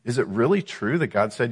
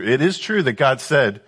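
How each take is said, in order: First: "really" stressed in a sceptical question; doubting emphasis. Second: "is true" asserted firmly, higher, then falling; factual emphasis. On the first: Acted. Devil asking the woman about God's command, doubting emphasis. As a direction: lean on "really" to cast doubt on it. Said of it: "do you see the emphasis?". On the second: Shown as a demonstration. Teacher conceding the fact behind the devil's question, factual emphasis. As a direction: affirm it with the stress on "is true". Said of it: "he's taking this true".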